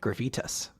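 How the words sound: The word is said in a French accent.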